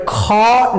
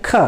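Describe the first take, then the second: First: Heavy, drawn-out "ख" with a long vowel; wrong pronunciation. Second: Short, soft "ख" with a light puff; soft consonant. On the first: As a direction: stretch "ख" out with full aspiration. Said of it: "but ख नहीं पढ़ सकते". (भारी, खिंचा हुआ "ख") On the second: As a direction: say "ख" briefly, no long vowel. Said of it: "इसको सॉफ्ट में पढ़ेंगे". (सॉफ्ट, छोटा "ख") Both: Shown as a demonstration.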